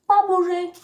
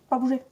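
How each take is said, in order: First: Louder and higher, firm stay order; loud command. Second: Said in the usual way. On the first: Real, not acted. Telling the dog to stay a third time, loud and firm. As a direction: raise the voice so the dog obeys.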